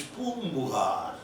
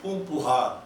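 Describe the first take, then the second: First: Poombuhar said slowly with a soft b after m; correct b sound. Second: Poompuhar said with a clear p in the middle; wrong p sound. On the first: Teacher giving the authentic Tamil form, slowly. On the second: Teacher showing the Telugu way before correcting it. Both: Shown as a demonstration. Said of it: "No, it's Poombuhar".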